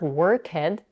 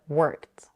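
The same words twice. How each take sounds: First: An extra vowel is added before the final t. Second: The final t follows the k with no vowel. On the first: The speaker calls it wrong. "Make sure not to add a vowel between the k and the t. It's not worked" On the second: The speaker calls it right. "but worked"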